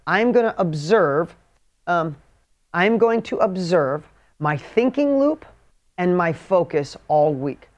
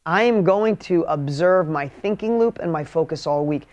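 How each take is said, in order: First: Slow, word by word dictation. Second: Said in the usual way. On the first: Shown as a demonstration. Dictating the weekly task to the audience, slowly. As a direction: spell it out slowly so they can write. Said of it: "seriously, write this down". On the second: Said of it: "write this down for me".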